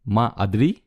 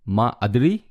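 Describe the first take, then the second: Both takes have the same delivery.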